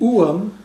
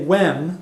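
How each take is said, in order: First: It is said as two drawn-out syllables. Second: It is said as one short syllable. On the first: "alternate pronunciation" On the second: "which I picked because it was the easiest pronunciation"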